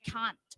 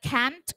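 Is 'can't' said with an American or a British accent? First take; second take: British; American. First: The word is said with a British vowel. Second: The word is said with an American vowel. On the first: "ถ้าออกแนว British หน่อยก็" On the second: "เราอ่านได้ can't ก็ได้"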